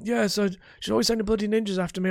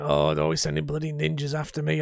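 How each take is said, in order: First: Higher, quick put-on voice; ex-husband Harold. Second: Strained character voice, grumbling about ninjas; ex-husband Harold. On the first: Gamer tests an easier ex-husband voice, higher and quicker. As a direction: complain fast in a pitched-up character register. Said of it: "That'll work, that'll work". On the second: Gamer demos his ex-husband character, straining character voice. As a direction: put on a throat-straining grumbler's voice. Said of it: "I can't do the voice for very long". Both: Shown as a demonstration.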